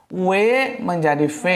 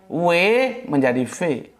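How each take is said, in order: Both takes have the same delivery.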